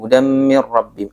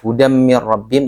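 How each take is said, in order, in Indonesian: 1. Bunyi m ganda ditahan sedikit lebih lama. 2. Bunyi m ganda langsung dilepas. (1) "Ada jeda sedikit ya" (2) "nggak langsung dilepas"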